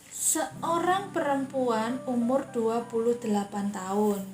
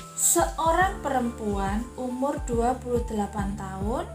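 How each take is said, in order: No difference in how they are said.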